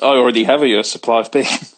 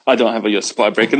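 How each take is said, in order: First: Said in the usual way. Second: Quick retraction through a laugh, a bit faster. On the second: Real, not acted. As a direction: laugh it off as you take it back. Laughs while retracting the claim.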